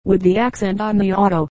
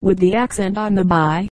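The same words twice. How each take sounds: First: Understated correction landing on "auto"; correcting, stress on "auto". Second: "by" set apart at the end, pitched slightly down; understated sarcasm, landing on "by"; sarcastic stress on "by". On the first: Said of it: "his friend corrected". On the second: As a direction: point up the last word "by" with mild sarcasm. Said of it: "One of the newcomers suggested sarcastically". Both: A narrator's reading.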